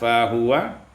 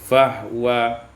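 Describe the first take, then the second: First: The h is followed by a short u vowel. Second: The h has no vowel after it.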